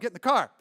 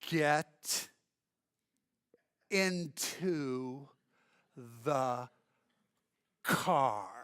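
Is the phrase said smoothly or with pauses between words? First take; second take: smoothly; with pauses. First: The words run together quickly without pauses. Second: Each word is enunciated with pauses between them. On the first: "fast, loud" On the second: "he would enunciate and pause between every"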